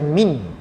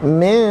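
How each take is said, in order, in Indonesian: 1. Bunyi n diucapkan dengan jelas dan penuh. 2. Bunyi n tersembunyi menjadi bunyi sengau. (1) "jangan baca min. Kalau kita baca min jadi izhar" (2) "sembunyikan dia"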